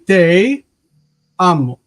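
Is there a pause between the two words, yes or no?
yes. There is a pause between te and amo.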